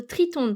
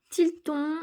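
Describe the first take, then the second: First: "Triton" said properly with the R; corrected. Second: "Tilton" said with an L instead of an R; mispronounced. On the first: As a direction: fix the slip and say "Triton". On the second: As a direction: slip into "Tilton" before correcting. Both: Real, not acted.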